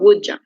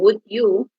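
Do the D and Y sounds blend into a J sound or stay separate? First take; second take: blend; separate. First: The D and Y blend into a J sound. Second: The D and Y sounds stay separate. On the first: "we pronounce like J" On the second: "instead of saying"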